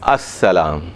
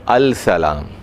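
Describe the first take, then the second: First: The l merges into a doubled s sound. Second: The l of the article is clearly pronounced. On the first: This is how it is read aloud. "पढ़ेंगे क्या?" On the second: This is how it is written. "लिखेंगे क्या?"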